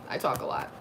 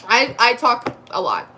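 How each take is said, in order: First: Whispered "I talk a lot" under the breath; whispered aside. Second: Said in the usual way. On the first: Real, not acted. To her viewers, a whispered confession that she talks a lot.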